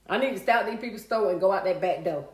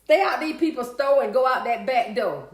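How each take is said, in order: First: Said in the usual way. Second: Loud, punched-out rhyming slogan; emphatic rhyme. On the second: Real, not acted. Streamer repeating her accidental rhyme to viewers, loud and emphatic. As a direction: belt out the rhyme proudly.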